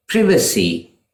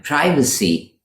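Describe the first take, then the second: First: "privacy" said PRIV-uh-see; British "privacy" with a short first vowel. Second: "privacy" said PRY-vuh-see; American "privacy" with a long first vowel. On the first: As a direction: start "privacy" like privilege. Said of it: "for British speakers". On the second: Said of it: "for Americans". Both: Shown as a demonstration.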